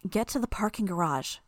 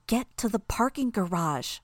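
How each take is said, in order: First: Said in the usual way. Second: Hissed through her teeth; furious hiss through teeth, higher; whispered fury. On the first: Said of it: "Tattletale told us". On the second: A narrator's reading. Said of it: "she hissed through her teeth".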